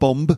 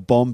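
First: The final b is pronounced. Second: The final b is silent. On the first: The speaker calls it wrong. "not bomb" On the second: The speaker calls it right. "Bomb, B-O-M-B"

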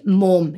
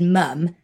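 First: The vowel is the local Liverpool one. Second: The vowel is a posher, non-local one. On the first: This is how the local children said it. "being called a snob because I didn't say mum" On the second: This way of saying it got her called a snob. "desperately trying to nudge my vowel sounds because I said mum"

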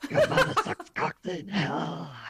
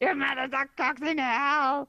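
First: It is said in a scarier, demonic voice. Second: It sounds like a Kermit impression.

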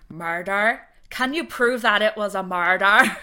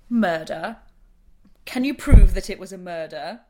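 First: It is said in an Irish accent. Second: It is said in the speaker's plain accent.

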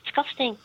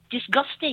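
First: The consonant after 'dis' is a k sound. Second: The consonant after 'dis' is a g sound. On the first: The speaker calls it wrong. "D-I-S-C-C-U-S-T-I-N-G. Disgusting" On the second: The speaker calls it right. "I realised it was disgusting"

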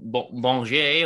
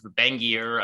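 First: The name is said with a French pronunciation. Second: The name is said with an American pronunciation. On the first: "go full French kind of" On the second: "Americanized kind of"

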